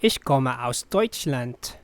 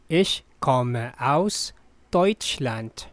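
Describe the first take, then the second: First: Said in the usual way. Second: Ich komme aus Deutschland said slowly, stress on Ich; slow and clear. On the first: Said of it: "first take at normal pace". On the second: Shown as a demonstration. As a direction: spell it out slowly for the learner. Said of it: "slow repeat for learners". (slow teacher read)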